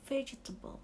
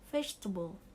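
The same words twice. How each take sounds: First: The word is said with four syllables. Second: The word is said with three syllables. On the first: The speaker calls it wrong. "Tapi itu ternyata salah" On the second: The speaker calls it right. "tiga silabel, tiga suku kata"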